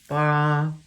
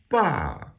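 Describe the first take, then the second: First: The pitch stays high and level. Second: The pitch falls sharply from high. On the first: "That would be first tone. That's that high flat tone" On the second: "which is a falling tone"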